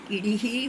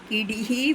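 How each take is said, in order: Both takes have the same delivery.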